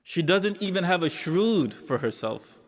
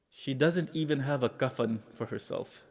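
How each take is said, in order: First: "shrood" lifted high above the rest; stress on shrood. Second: Hushed sorrow. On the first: Preacher repeating it for mourners, "shrood" pushed up in emphasis. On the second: Preacher revealing her poverty to mourners, hushed and sorrowful. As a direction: let it sink almost to nothing. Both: Real, not acted.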